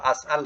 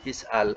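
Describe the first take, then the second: First: The word begins with an 'a' vowel. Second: The word begins with an 'i' vowel. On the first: The speaker calls it wrong. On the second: The speaker calls it right. "tu betul lah tu"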